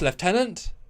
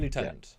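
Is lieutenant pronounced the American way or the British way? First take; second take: British; American. First: It is said the British way, like leftenant. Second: It is said the American way, like lootenant. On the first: The speaker calls it right. "I know that's the correct way" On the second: The speaker calls it wrong. "say it the wrong way"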